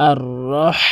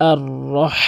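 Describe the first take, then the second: Both takes have the same delivery.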